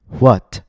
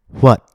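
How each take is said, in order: First: The final T is released with a puff of air. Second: The final T is stopped in the throat. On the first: "instead of saying" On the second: "Notice how I didn't release the air of my T"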